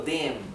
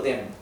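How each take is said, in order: First: The vowel is said long. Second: The vowel is said short. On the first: The speaker calls it right. "pronuncio la E más larga" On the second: The speaker calls it wrong. "no digo dem"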